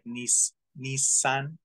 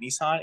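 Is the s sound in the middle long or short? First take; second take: long; short. First: The middle s sound is held long. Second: The middle s sound is short. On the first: The speaker calls it right. "It's supposed to be like Nissan. It's a long S" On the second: The speaker calls it wrong. "we say Nissan"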